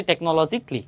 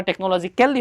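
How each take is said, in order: First: টেকনোলজিক্যালি with "cally" squeezed into "klee"; correct pronunciation. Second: টেকনোলজিক্যালি with the "kyal" fully sounded before "li"; mistaken spelling pronunciation. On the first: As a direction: say টেকনোলজিক্যালি as "tek-no-lo-zik-li", dropping the "al". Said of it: "সঠিক উচ্চারণটা হচ্ছে". (টেকনোলজিক্যালি-র "ক্যাল" না বলে, শেষে "ক্লি") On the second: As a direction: say টেকনোলজিক্যালি as spelt, ending "kel-li". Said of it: "প্রনাউন্সিয়েশনটা মনে হয় যেন". (টেকনোলজিক্যালি-র "ক্যাল" পুরো উচ্চারণ করে, "ক্যাল-লি") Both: Shown as a demonstration.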